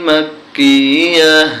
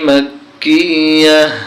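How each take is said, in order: The two takes are said the same way.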